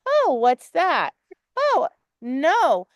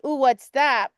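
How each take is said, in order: First: Slow, mock-worried oh, what's that; worried owner. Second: Lightly voiced curious dog perking up; a hint of a dog noticing something. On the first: Coach mimicking the student's worried reaction, slow mock worry. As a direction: imitate the student's anxious reaction, drawn out. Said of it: "the bigger lesson is you went". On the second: Owner showing how her dog reacted, lightly curious. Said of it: "he was like".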